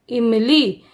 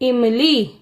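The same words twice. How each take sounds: No difference in how they are said.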